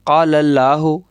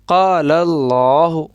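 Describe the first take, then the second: First: The L in Allah sounds thin and light. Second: The L in Allah sounds full and heavy. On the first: The speaker calls it wrong. "ऐसे नहीं पढ़ेंगे" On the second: The speaker calls it right. "लाम को पूर्व पढ़ेंगे"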